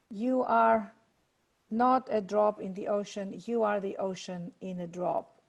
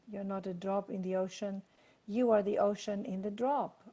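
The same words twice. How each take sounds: First: Slow, weighty recitation with long pauses; reciting Rumi with pauses; slow recited quote. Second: Softer, quicker second reading; repeating the line softly. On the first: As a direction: let each phrase of the poem land slowly. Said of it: "just to quote my favorite poet". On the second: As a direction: say it again lightly and faster. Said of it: "I'm gonna say that again". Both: Shown as a demonstration.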